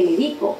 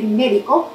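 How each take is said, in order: First: "medico" stressed on the middle syllable, me-DI-co; "medico" with the weight on DI. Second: "médico" stressed on the first syllable, MÉ-di-co; "médico" with the weight on MÉ. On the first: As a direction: lean on the "di" in "medico". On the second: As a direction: hit the "mé" in "médico". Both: Shown as a demonstration. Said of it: "No significa lo mismo".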